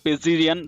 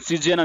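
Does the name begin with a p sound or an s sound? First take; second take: p sound; s sound. First: The name begins with a p sound. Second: The name begins with an s sound. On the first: "ఎట్లైనా మీరు pronounce చేసుకోండి" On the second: "నేను సిజియన్ అని చెప్పేసి అంటాను... పి silent"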